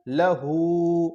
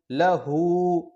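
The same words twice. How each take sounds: First: لہو with the final ہو held long; لہو read slowly, the last vowel pulled out long; drawn-out vowel. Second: Said in the usual way. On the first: Shown as a demonstration. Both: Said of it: "کھینچ کے پڑھیں گے".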